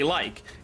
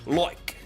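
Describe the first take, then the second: First: It is said in an American accent. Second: It is said in an Australian accent. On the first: "in American English you say like" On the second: "In Australian English, you say loik"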